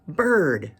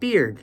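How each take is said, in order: First: The vowel is the 'ur' sound of bird. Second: The vowel is the 'ear' sound of beard. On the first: The speaker calls it right. "bird, the winged creature that flies through the air" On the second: The speaker calls it wrong. "many people pronounce it beard"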